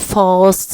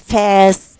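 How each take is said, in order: First: It is said in a British accent. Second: It is said in an American accent. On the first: "British say" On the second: "Americans say fast"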